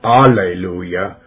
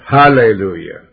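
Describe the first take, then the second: First: The word starts with a vowel, no H. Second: The word starts with an H sound. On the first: The speaker calls it wrong. "not alleluia" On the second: The speaker calls it right. "but hallelujah. Let's say it right. The H is stands for God"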